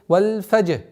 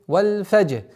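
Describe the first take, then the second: The two takes are said the same way.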